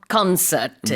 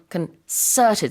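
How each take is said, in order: First: The stress is on the first syllable. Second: The stress is on the second syllable. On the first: The speaker calls it wrong. "not concerted, like like a concert" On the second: The speaker calls it right. "the stress is on concerted, so the second syllable"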